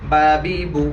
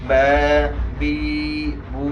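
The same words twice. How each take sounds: First: The vowels are said short and quickly. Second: The vowels are stretched out long. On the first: The speaker calls it right. "তাড়াতাড়ি" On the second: The speaker calls it wrong. "একালিফ করে টান হয়ে যায়, এটা ভুল।"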